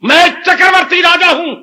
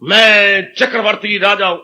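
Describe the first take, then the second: First: It is spoken forcefully, with strong energy. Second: It is spoken weakly, without force. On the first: The speaker calls it right. "जानदार शब्दों में" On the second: The speaker calls it wrong. "ऐसा नहीं बोलना"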